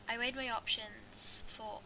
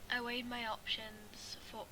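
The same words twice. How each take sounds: The two takes are said the same way.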